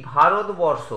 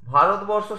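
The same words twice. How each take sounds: First: Said in the usual way. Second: Bharatvarsha broken as ভা, রত, বর, ষ; four separate beats on Bharatvarsha, pausing between; syllable by syllable. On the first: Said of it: "Bharatvarsha শব্দটি উচ্চারণ করি". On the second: Shown as a demonstration. Teacher showing students four beats, Bharatvarsha split by syllable. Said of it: "এখানে চারবার ঝোঁক পড়ছে".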